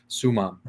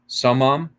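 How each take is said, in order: First: The word sounds like sumam. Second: The word sounds like samam. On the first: The speaker calls it right. "It's supposed to be sumam is the proper Latin enunciation" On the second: The speaker calls it wrong. "it sounds like he says samam"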